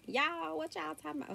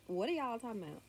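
First: Put-on thick Southern accent. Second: Said in the usual way. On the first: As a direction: play up a thick Southern accent on a high-pitched retort. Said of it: "such a thick Southern accent". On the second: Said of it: "no, I didn't say that".

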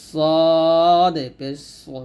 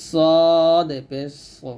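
First: সদ পেশ সো drawn out with a full heavy সো; heavy-letter demo; heavy thick demo. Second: সদ পেশ সো repeated slowly, thick সো; heavy-letter repeat; heavy thick demo. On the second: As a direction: say সদ পেশ সো thick and slow again. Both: Shown as a demonstration. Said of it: "মোটা করে".

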